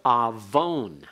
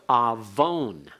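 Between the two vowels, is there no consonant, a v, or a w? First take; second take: v; v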